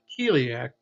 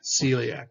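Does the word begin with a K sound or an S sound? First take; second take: K sound; S sound. First: The word begins with a hard K sound. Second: The word begins with a soft S sound. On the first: The speaker calls it wrong. "That's not celiac" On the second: The speaker calls it right. "the true word or the pronunciation of this would be celiac"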